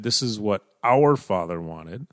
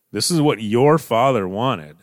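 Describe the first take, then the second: First: OUR picked out, rising at the end; stress on OUR. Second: YOUR hit louder than the other words; stress on YOUR. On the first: Brothers imagined putting it on themselves, stress on OUR. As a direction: lean on "our" to claim the father. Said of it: "that places the emphasis back on them". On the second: Brothers appealing to Joseph about his father's wishes, stress on YOUR. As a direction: punch "your" to put it on the listener. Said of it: "it places the emphasis on Joseph". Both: Shown as a demonstration.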